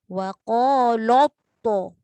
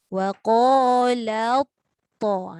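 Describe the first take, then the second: First: The L sound is made heavy and thick. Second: The L sound is kept light and thin. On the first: The speaker calls it wrong. "jangan sampai bunyi to itu tebal, lam pun jadi tebal" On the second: The speaker calls it right. "La nipis dulu baru la to. Baru tebal"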